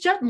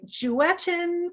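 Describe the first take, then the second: First: The name rhymes with button. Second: The name does not rhyme with button. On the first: The speaker calls it right. "no, it's Jutton like button" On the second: The speaker calls it wrong. "sometimes people will say Juetten"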